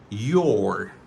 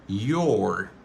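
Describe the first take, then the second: No difference in how they are said.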